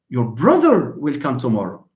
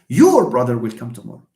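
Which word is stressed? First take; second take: brother; your. First: The stress falls on the word brother. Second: The stress falls on the word your. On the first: It is the brother, not a sister or cousin. "I stress the word brother" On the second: It is that person's brother, not someone else's. "if I stress your brother, your, just the word your"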